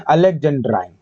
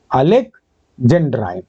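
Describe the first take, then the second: First: Said in the usual way. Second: Alexandrine slowly, split in two with a pause; slow dictation. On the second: Shown as a demonstration. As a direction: dictate Alexandrine in parts, first part rising, then falling. Teacher repeats term in parts.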